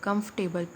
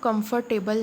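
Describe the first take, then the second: First: The middle 'or' sound is left silent. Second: The middle 'or' sound is fully pronounced. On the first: The speaker calls it right. "ओ आर और जो है वो हम silent कर देंगे" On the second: The speaker calls it wrong. "इसको हम कंफर्टेबल नहीं पढ़ेंगे"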